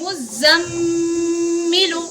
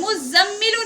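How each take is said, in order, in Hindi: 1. "m" ध्वनि नाक वाली और रोकी हुई है। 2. "m" ध्वनि सादी और छोटी है। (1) "मीम पर यहाँ गुन्ना भी होगा" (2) "मुजम्मिलु नहीं पढ़ेंगे"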